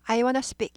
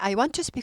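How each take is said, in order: First: Want to is reduced to wanna. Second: Want to is pronounced as two full words. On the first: The speaker calls it right. "I wanna speak 이렇게 발음하죠" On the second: The speaker calls it wrong. "미국 사람 중에 I want to speak 하는 사람 거의 없다예요"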